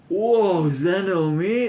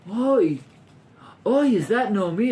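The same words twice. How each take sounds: First: Gasp, then high, slowed, gloating surprise; shock without compassion. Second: High, pained oi of concern; sympathetic shock. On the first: Vengeful townspeople see Naomi fallen, shocked and satisfied. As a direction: gasp and savour the sight, pitiless. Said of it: "there's no compassion in that statement". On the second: Teacher shows what townspeople did not feel, compassionate shock. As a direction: cry out as if sorry to see it. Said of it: "but it's not shocked and go". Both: Shown as a demonstration.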